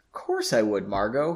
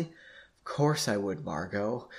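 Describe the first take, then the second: First: Said in the usual way. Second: Slow, soft and breathy; softly. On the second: A narrator's reading. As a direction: say it softly, drawn out. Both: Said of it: "he responded softly".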